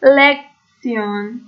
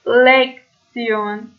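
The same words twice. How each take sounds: First: لکسیون said very slowly with tsion, rising; German tion as tsion. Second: لکسیون said very slowly with tsion; German tion as tsion. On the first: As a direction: stretch لکسیون out. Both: Shown as a demonstration.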